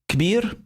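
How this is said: The word begins with a k sound. This is how Syrians say big. "in Syria we say kabir"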